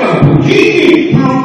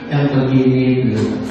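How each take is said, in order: First: It is read with lively, amazed intonation. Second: It is read flatly, without expressive intonation. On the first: The speaker calls it right. "Harusnya intonasinya bagaimana? Ya begini loh" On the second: The speaker calls it wrong. "baca seperti tadi ... Enak nggak bacanya?"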